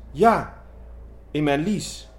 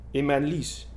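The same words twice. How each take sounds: First: "in mijn lies." repeated higher and louder, "lies" stressed; hysterical poodle. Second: "In mijn lies." said first, the milder of two takes; fussy poodle whine. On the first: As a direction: insist on it, working up to hysterics. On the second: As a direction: fret about the sore groin like a prissy little dog. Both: Acted. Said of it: "nuffig tikje hysterisch poedeltje".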